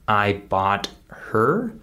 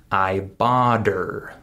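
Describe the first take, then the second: First: Slow "her" with its H clearly sounded; full pronunciation. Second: "her" without its H, linked onto "bought"; dropped H. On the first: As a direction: keep "bought" and "her" apart, H audible in "her". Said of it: "instead of saying". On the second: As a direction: slowly join "bought her" as "bodder". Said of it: "I skip the H sound". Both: Shown as a demonstration.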